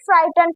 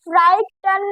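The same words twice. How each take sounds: First: फ्राइटन said as fraitən, silent letters dropped; teacher models फ्राइटन with the silent letters dropped; correct reading shown. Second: फ्राइटन read the wrong way, as spelt; teacher shows the wrong reading of फ्राइटन; wrong reading shown. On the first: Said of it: "फ्राइटन पढ़ेंगे इसको". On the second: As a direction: demo of how फ्राइटन is not said. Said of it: "फ्राइटन नहीं पढ़ेंगे". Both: Shown as a demonstration.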